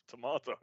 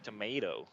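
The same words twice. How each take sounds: First: The word is said in a British accent. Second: The word is said in an American accent. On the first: "that's just how it's pronounced in British English" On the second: "you go"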